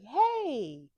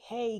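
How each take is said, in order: First: The hey sounds warm and inviting. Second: The hey sounds harsh and scolding.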